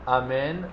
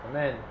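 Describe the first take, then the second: First: The first vowel is a full, normal vowel. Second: The first vowel is clipped very short. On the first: The speaker calls it right. "Instead of saying אמן" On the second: The speaker calls it wrong. "The shortest אלף that he can say, he's saying אמן"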